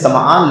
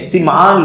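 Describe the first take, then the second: First: The first vowel of the name is 'a'. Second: The first vowel of the name is 'i'. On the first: The speaker calls it wrong. "आमतौर पर लोग नाम लेते हैं तो नवास इब्ने समआन कहते हैं, लेकिन असल में समआन लफ्ज नहीं है" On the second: The speaker calls it right. "सिमआन लफ्ज है"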